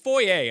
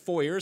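First: Foyer is pronounced the French way. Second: Foyer is pronounced the Americanized way. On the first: The speaker calls it right. "it's foyer. It's a French word" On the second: The speaker calls it wrong. "anyone that says foyer sounds very day class A"

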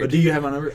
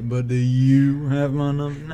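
First: It is said quickly with a nervous, scared tone. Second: It is said at a calm, even pace.

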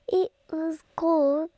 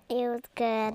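First: It is said in a British accent. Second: It is said in her normal accent.

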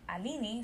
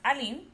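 First: The name is said with a Brazilian pronunciation. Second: The name is said with a French pronunciation. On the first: "being Brazilian, we pronounce Alini Alini" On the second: "my name in French is pronounced Aline"

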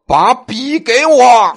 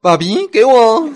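First: It is said with heavy, forceful emphasis. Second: It is said softly and sweetly.

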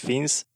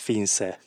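First: The final e is silent. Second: The final e is pronounced. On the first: The speaker calls it wrong. "én azt hittem, hogy úgy kell ejteni, hogy Finsz" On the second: The speaker calls it right. "ez Finse kiejtve is, nem csak leírva"

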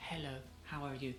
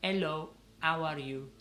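First: It has an English accent with a soft H. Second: It has an Italian accent, dropping the H.

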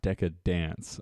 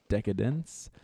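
First: The last syllable sounds like 'dance'. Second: The last syllable sounds like 'dence'. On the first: The speaker calls it wrong. "it's definitely not Decadance. ... Instead of dance" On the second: The speaker calls it right. "I said it right this time"

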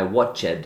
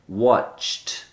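First: The ending is said as an extra syllable. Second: The ending is said as a t sound. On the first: The speaker calls it wrong. "they fully pronounce the ED sound as a separate syllable" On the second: The speaker calls it right. "the ED actually sounds like a T"

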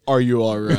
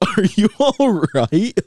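First: It is said with sincere concern. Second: It is said laughing, not sincerely.

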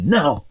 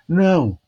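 First: It is said with strong vocal intensity. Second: It is said with weak vocal intensity.

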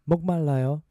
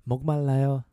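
No difference in how they are said.

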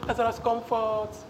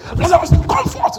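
First: It is said softly and meekly. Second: It is shouted in a loud voice.

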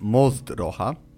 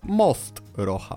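First: The end of 'most' is voiced before 'rocha'. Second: The end of 'most' stays voiceless before 'rocha'. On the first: This is the Poznań dialect way of saying it. "Poznaniak powie zatem" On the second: This is the standard Polish way of saying it.

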